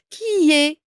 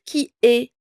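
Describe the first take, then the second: First: The two words are joined smoothly together. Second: The two words are said separately with a break. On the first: The speaker calls it right. "on va relier le I et le E. On va dire qui est" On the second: The speaker calls it wrong. "On va pas dire qui est"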